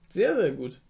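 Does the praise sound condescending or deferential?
condescending. The praise sounds condescending, talking down. The speaker looks down on the listener. "Nicht so von oben herab"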